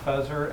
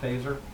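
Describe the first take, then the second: First: The name is said as spelled, unlike 'phaser'. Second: The name is said like the word 'phaser'. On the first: This is how the spelling reads. "it's F E S E R, which is Fezer" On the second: This is how the man himself says it. "he pronounces it Phaser, just to be cool"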